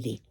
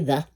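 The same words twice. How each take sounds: First: It is said the way used before vowels. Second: It is said the way used before consonants. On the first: The next word begins with a vowel sound. "But if it begins with a vowel sound, you're going to say the" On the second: The next word begins with a consonant sound. "if your subject, your noun, begins with a consonant, you're going to say the"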